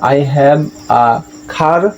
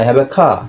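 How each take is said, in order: First: The final r sound is pronounced. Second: The final r sound is silent. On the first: The speaker calls it wrong. "আমরা এখানে I have a খার বলবো না" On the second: The speaker calls it right. "কারণ শব্দের শেষে আর আছে"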